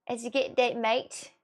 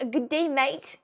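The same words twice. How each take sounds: First: Attempted Australian "mate"; lightly put-on Australian accent. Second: Louder, higher Australian "Good day, mate"; put-on Australian greeting; Australian accent. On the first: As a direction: try an Australian g'day, a little tentatively. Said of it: "I will say that the right way". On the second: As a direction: call out a corrected Australian g'day. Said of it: "say that the right way, as in Australia".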